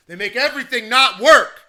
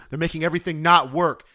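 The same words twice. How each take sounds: First: Higher, much louder outburst; exasperated shout. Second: Said in the usual way. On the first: Real, not acted. Ranting about broken software to listeners, exasperated shout. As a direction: blurt it out loud in exasperation. Repeats the complaint, now shouting it.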